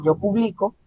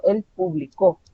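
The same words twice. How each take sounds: First: Higher "yo publico", BLI stressed; stress on middle syllable. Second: "él publicó" with the weight on CÓ; stress on last syllable. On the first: Teacher explaining the present tense, middle syllable of "publico" stressed. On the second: Teacher explaining the past tense, last syllable of "publicó" stressed. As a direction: punch the end: publi-CÓ. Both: Shown as a demonstration. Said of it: "la manera en que se pronuncia".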